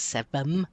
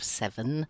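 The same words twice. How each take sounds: First: The final sound is pronounced like an m. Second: The final sound is pronounced as an n. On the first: "it becomes seven" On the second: "instead of seven"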